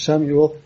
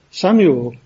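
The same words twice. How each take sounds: First: Said in the usual way. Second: "Samuel" punched with a rise and fall; emphatic repeat. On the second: Shown as a demonstration. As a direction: call "Samuel" with more force. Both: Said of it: "there's an emphasis".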